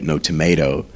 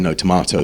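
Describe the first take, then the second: First: Tomato is pronounced with an American accent. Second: Tomato is pronounced with a non-American accent. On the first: Listeners understand the request. The speaker calls it right. "so I will say no tomato" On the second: Listeners fail to register the request. The speaker calls it wrong. "if I say no tomato, they forget it"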